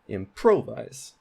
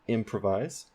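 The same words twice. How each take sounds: First: The stress is on the middle syllable. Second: The stress is on the first syllable. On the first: The speaker calls it wrong. "That sounds really weird, but that is primary stress on pro" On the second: The speaker calls it right. "The main stress is at the beginning of the word for im on that syllable"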